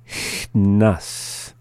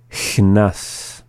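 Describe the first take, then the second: First: "Chnas" with a held "Ch" and a small gap before "nas"; slowly. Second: Said in the usual way. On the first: Shown as a demonstration. Teacher repeating after the English, "Chnas" said slowly. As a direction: ease "Chnas" apart slowly. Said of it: "the second time slowly". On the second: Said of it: "up to speed".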